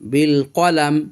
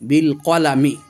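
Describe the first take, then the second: First: The last word ends on the 'm' consonant. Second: The last word ends with a short 'i' vowel. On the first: The reader stops at this word. "ওয়াকফ করার জন্য আমরা এই মিমের কাসরাটা পড়ব না" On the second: The reading continues without a stop. "মিম জের মি বিল কলামি"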